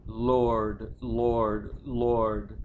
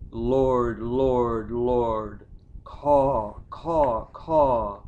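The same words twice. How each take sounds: First: Said in the usual way. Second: Loud lament. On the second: Acted. Grieving son crying to the Lord at the grave, loud wail. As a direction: cry out to God, then shriek like crows.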